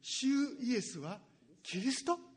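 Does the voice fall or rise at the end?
rises. The voice rises at the end like a question. It is asked as a question. The speaker calls it right. "ちょっと質問形で言わないといけませんね"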